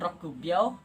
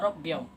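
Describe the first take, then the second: First: The middle syllable 'ku' is fully pronounced. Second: The 'ku' is replaced by a doubled consonant. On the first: The speaker calls it wrong. "bukan rokubyo" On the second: The speaker calls it right. "tetapi kita baca robbyo"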